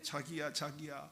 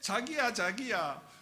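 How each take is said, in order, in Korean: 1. 서울 말투로 말하고 있어요. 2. 경상도 말투로 말하고 있어요. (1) "서울말로 하는 거죠" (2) "경상도 말로 했겠죠"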